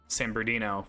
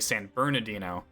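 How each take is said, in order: First: The name is said in a shortened form. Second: The name is said in full. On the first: This is how a Californian says it. "We kind of shorten words a little bit" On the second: This is the standard pronunciation. "which is actually"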